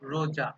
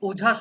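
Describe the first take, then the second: First: The word begins with an added r sound. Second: The word begins with a vowel sound.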